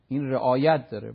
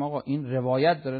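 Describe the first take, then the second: First: رعایت punched louder; stress on رعایت. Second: روایت picked out as the key word; stress on روایت. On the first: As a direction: hit رعایت hard as the corrected word. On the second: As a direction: put the weight on روایت. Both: Shown as a demonstration. Wordplay contrasting revayat with re'ayat.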